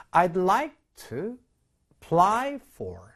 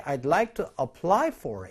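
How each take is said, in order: First: Very slow, word by word, "apply" with its weak A; slow demo reading. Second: The A of "apply" fully sounded, each word distinct; clear careful version. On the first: Teacher modelling the phrase slowly for students, slow and careful. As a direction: spell out I'd like to apply for slowly. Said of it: "이렇게 발음을 보통 하거든요". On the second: Voice actor reading for learners, clear and careful. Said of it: "우리 성우는 조금 더 친절하게". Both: Shown as a demonstration.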